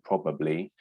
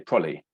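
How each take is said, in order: First: Every syllable is fully and clearly articulated. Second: The syllables are under-articulated and squeezed together. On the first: "instead of saying probably" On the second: "we often say probably"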